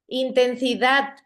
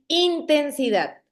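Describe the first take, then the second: First: The stress is on the last syllable. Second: The stress is on the first syllable. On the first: "correcto, es en dat, es en la última sílaba" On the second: "si la tuvieran en, en la primera I, sonara así"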